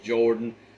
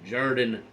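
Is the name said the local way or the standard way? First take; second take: standard; local. First: The name has the usual vowel sound. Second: The name has the local vowel sound. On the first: This is how the spelling suggests it. The speaker calls it right. "J O R D A N is Jordan" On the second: This is how the home team says it. The speaker calls it wrong. "according to Auburn, is Jordan Hare Stadium"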